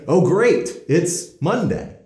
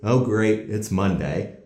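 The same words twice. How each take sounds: First: It is said with sincere, happy enthusiasm. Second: It is said sarcastically, as a complaint.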